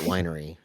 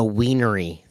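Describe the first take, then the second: First: The word starts with a 'wine' sound. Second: The word starts with a 'wiener' sound. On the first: This is the usual way to say it. "They don't even pronounce it winery" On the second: This is how the locals there say it. "they actually pronounce it a wienery there"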